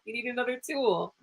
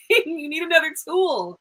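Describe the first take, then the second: First: Said in the usual way. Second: Laughing through the words, a bit higher. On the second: Real, not acted. Reader laughing as she advises the client. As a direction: chuckle it out as you say it.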